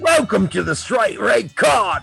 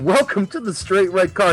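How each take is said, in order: First: It is said in a put-on English accent. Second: It is said in his normal American accent.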